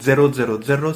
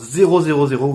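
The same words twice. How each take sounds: First: The title is said with Italian pronunciation. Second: The title is said with French pronunciation.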